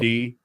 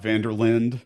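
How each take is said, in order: First: The final E is sounded at the end. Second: The final E is left silent. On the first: The speaker calls it right. "Remember to pronounce the E" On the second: The speaker calls it wrong. "not Vanderlind"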